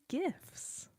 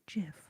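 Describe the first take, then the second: First: The word begins with a hard G sound. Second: The word begins with a J sound.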